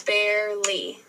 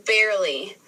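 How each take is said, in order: First: "barely" broken into bare, ly; split into syllables. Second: Said in the usual way. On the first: Shown as a demonstration. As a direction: say "barely" in two separate beats. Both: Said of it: "break down those syllables".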